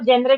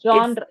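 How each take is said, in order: First: The word begins with a 'jen' sound. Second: The word begins with a 'jon' sound. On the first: The speaker calls it wrong. "लोग जेनरे, जेनरे बोलते हैं" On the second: The speaker calls it right. "It's not जेनरे ... it's जॉनर"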